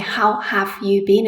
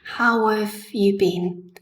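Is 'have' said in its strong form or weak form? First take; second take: strong; weak. First: The word 'have' is full and clearly pronounced. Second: The word 'have' is soft and reduced. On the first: The speaker calls it wrong. "I don't say how have you been" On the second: The speaker calls it right. "I say have in a very soft way. I use the weak form"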